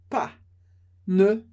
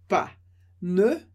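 No difference in how they are said.

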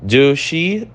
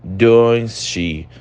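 First: "Do she" said as the error; teacher marking the wrong form. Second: Teacher marking the right form; correct form. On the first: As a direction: mark "Do she" as incorrect. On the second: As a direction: clear "Does she". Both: Shown as a demonstration.

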